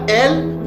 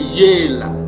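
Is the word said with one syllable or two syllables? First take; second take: one; two. First: The word is said as one short syllable. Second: The word is said as two syllables, ye-la. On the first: The speaker calls it wrong. "C'est pas elle" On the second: The speaker calls it right. "mais c'est yéla"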